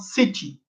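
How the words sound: It is said in a British English accent. "o britânico fala"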